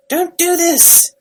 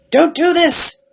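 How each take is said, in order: First: Higher, slower, drawn-out retold plea; stretched mock wail. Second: Higher, louder retold cry of don't; half-acted alarm, pushing back hard; mock frantic plea. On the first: House pleading again, retold as a slower hammed-up wail. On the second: House begging the tardis to stop, retold as a mock frantic plea.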